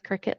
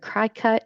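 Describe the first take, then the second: First: It is said like the word cricket. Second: It is said unlike the word cricket. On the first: The speaker calls it right. "it is Cricut like the bug" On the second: The speaker calls it wrong. "I've heard Cricut"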